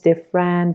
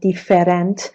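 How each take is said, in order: First: The vowel after the stressed syllable is silent. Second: The vowel after the stressed syllable is pronounced. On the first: The speaker calls it right. "به خاطر همین میگیم" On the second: The speaker calls it wrong. "ما نمیگیم different"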